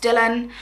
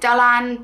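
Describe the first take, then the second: First: The name is pronounced the English way. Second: The name is pronounced the Welsh way. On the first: "I would probably steer more towards Dylan" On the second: "the Welsh pronounce it Dylan"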